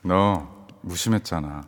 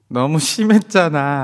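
First: The break comes after 너, meaning you were indifferent. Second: The break comes after 너무, meaning too harsh.

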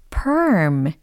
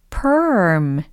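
No difference in how they are said.

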